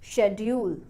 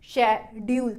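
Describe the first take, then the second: First: The stress is on the first syllable. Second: Both syllables are said evenly, like a robot. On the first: "शेड वाले part को stress के साथ बोलूंगी" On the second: "robot की तरह बोले"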